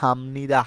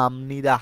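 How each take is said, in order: First: The consonant before 'nida' is an m sound. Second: The same.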